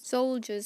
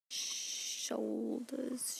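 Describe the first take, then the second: First: "Soldiers" said clearly with an s and a j sound; carefully fix it to "Soldiers"; corrected word. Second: "Shoulders" said with a sh sound instead of "soldiers"; misreading. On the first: Narrator correcting the misread word to "Soldiers". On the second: Narrator stumbling over the word soldiers, saying "Shoulders". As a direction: blurt "Shoulders" as if reading soldiers. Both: Real, not acted. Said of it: "shou-, soldiers".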